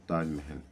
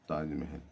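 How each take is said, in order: The two takes are said the same way.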